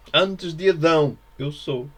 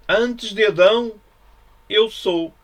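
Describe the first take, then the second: First: Said in the usual way. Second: Higher, louder, slow and declaiming; ringing proclamation. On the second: Acted. Preacher proclaiming Jesus's words to his listeners, ringing out. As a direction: proclaim it like a revelation.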